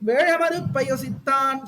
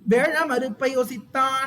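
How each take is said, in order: First: The words run together with a y-glide. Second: The words are split apart without a glide. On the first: "சேர்த்து சொல்லும் போது யோ ஆயிடும்" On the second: "அப்படி பிரிச்சு"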